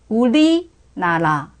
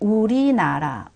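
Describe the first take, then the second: First: The middle consonant sounds held and doubled. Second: The middle consonant is a light tap. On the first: "중국어의 L 발음으로 우리나라를 발음을 해보시면" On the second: "리을 할 때 굳이 이렇게 혀 끝이 입천장에 닿지 않습니다"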